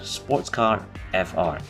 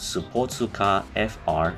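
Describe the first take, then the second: First: It is said with an English pronunciation. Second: It is said with a Japanese pronunciation.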